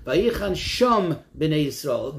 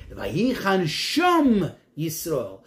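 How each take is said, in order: First: "Vayichan sham b'nei Yisrael" said slowly, leaning on "sham"; slow down and lean into the word "sham"; stress on sham. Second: "Vayichan sham Yisrael" drawn out very slowly, weight on "sham"; stress on sham. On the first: Teacher reading the verse to his class, leaning on "sham". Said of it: "What is the emphasis on the word there?". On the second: Teacher reading the verse again to show its point, slow stress on "sham". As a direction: read it slowly and lean on the word "sham". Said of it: "to emphasize that there". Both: Shown as a demonstration.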